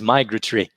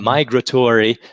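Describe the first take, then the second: First: Said in a British accent, a vowel swallowed. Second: Said in an American accent, all vowels pronounced.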